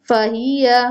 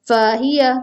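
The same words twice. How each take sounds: The two takes are said the same way.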